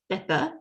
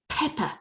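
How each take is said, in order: First: The first p has no puff of air. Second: The first p has a strong puff of air. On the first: The speaker calls it wrong. "So this is not pepper" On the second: The speaker calls it right. "this is pepper"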